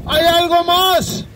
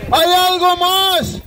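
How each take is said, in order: Both takes have the same delivery.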